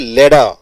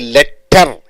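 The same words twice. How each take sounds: First: The middle consonant sounds like a D. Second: The middle consonant is a clear T. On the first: The speaker calls it right. "you say letter" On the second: The speaker calls it wrong. "You don't say letter"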